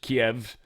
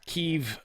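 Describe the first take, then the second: First: The name is pronounced the English way. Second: The name is pronounced the Ukrainian way. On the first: "which is just Kiev" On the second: "it's how they say it when it's pronounced in Ukrainian"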